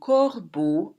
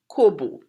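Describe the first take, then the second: First: It is said with a French pronunciation. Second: It is said with a Trinidadian pronunciation. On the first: "In French, un corbeau is a crow" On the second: "We pronounce it kobo"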